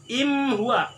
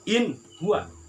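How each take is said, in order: First: The n is turned into an m sound. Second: The n is pronounced clearly and distinctly. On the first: The speaker calls it wrong. "Atau dibaca iklab" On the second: The speaker calls it right. "Yang benar adalah in huwa"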